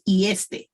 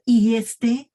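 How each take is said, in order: First: Said in the usual way. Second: "¿Y este?" with the voice rising at the end and louder; questioning intonation. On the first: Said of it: "intonation is very important". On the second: Shown as a demonstration.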